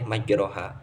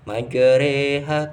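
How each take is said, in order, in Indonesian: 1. Vokal setelah r adalah a terbuka biasa. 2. Vokal setelah r condong ke e. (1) "tidak boleh majroha" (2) "harus majreha karena bacaan imalah"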